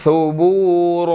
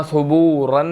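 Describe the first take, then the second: First: "सुबूरा" with long final a; "सुबूरा" slow, open ending; right ending. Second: "सुबूरन" ending in -n; "सुबूरन" to avoid; wrong ending. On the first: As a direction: stretch the end of "सुबूरा". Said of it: "नहीं पढ़ेंगे, सुबूरा". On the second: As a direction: say "सुबूरन" with nunation. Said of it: "सुबूरन नहीं पढ़ेंगे". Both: Shown as a demonstration.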